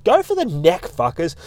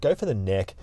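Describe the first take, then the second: First: Emphatic rallying shout, pitched well up; go for the neck. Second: Said in the usual way. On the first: Real, not acted. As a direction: egg the fighters on, hard. Urging fighters, shouting advice.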